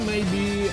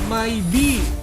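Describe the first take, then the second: First: The first syllable sounds like 'may'. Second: The first syllable sounds like 'my'. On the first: It means perhaps. "Maybe mungkin" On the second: It means my bee. "maybe my my lebahku"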